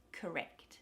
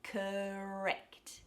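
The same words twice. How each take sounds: First: Said in the usual way. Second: Stretched CORRECT, lips ready for the R; early R shaping. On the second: Shown as a demonstration. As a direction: CORRECT with k sliding into a long held R. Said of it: "preparing to shape that R".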